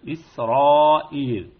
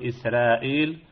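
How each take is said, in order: First: The r sound is heavy and full. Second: The r sound is light and thin. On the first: The speaker calls it right. "وإنما إسرائيل" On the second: The speaker calls it wrong. "لا نقول إسرائيل"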